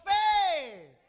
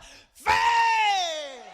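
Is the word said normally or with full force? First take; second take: normally; full force. First: It is said at normal strength. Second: It is shouted with full force.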